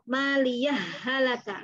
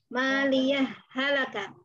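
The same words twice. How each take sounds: First: The two words run together with no break. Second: A brief stop without breath separates the words. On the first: "langsung kita lebur ke H yang kedua" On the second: "Berhenti tapi nggak ngambil nafas"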